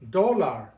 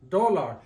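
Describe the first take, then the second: First: The stress is on the first syllable. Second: The stress is on the first syllable.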